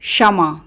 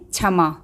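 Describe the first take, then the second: First: No separate k sound is heard before the sh. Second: A clear k sound is heard before the sh. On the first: The speaker calls it right. "इसका शुद्ध उच्चारण है" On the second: The speaker calls it wrong. "कुछ लोग इसका उच्चारण करते हैं"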